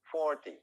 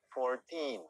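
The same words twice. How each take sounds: First: "forty" with the weight on the first syllable; stress on FOR. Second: "fourteen" with the weight on the last syllable; stress on teen. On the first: Teacher models forty against fourteen. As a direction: hit the start of "forty". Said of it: "harus dibaca sebagai forty". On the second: Teacher models fourteen for students. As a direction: land on the end of "fourteen". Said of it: "harus dibaca sebagai fourteen". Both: Shown as a demonstration.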